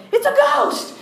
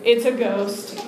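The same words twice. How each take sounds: First: High, squeaky mock panic; comic shriek of terror; freaking out. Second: Slow, understated mock fright; paralyzed. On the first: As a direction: shriek it like a panicked man, played for laughs. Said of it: "and they freak". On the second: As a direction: say it as if frozen to the spot. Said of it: "like, paralyzed".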